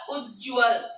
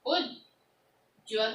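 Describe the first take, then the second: First: उज्ज्वल with a half ज, no vowel between ज and व; crisp model reading of उज्ज्वल, ज्व run together; correct pronunciation. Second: उज्ज्वल drawn out slowly as "उज्जवल", a full अ sounded after ज; slow, mistaken reading of उज्ज्वल with an extra vowel; wrong pronunciation. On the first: Teacher contrasting the right form for students, clear model reading. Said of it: "और मैंने क्या बोला". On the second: Teacher showing students the common mistake, slow wrong reading. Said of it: "कई बच्चे ऐसे लिखते हैं". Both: Shown as a demonstration.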